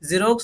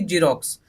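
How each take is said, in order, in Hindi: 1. इसकी शुरुआत भिनभिनाती z की आवाज़ से होती है। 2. इसकी शुरुआत j की आवाज़ से होती है। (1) "जीरोक्स क्या बोलेंगे इसको" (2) "ना कि"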